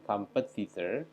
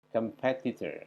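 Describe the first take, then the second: First: The stress is not on the second syllable. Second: The stress is on the second syllable. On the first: The speaker calls it wrong. "jadi bukan competitor" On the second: The speaker calls it right. "suku kata atau syllable yang kedua"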